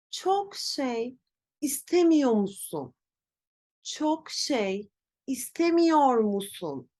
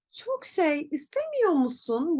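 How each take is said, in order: First: "istemiyor" with its R fully said, slow and stiff; labored full reading of "Çok şey istemiyor musun"; over-careful wrong form. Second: "istemiyor" said as "istemiyo", R dropped; casual "Çok şey istemiyor musun" without the R; natural spoken form. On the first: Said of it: "Ben yanlış telaffuz ederken biraz zorlanıyorum". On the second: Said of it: "Burada R sesimiz sanki yokmuş gibi". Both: Shown as a demonstration.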